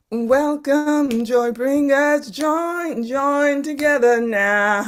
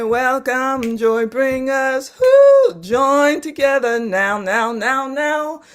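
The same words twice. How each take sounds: First: Higher, slow, sung-out repeat; chanted echo. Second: Higher and louder, slow, swelling on who; rousing proclamation. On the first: Teacher echoes Lisa's poem back in a higher chant. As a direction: chant it back like a call and response. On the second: Teacher proclaims the poem, building to a rousing climax. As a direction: build it up to a rallying call. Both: Shown as a demonstration. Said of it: "I say".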